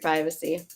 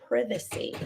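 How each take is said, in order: First: It is said in an American accent. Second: It is said in a British accent.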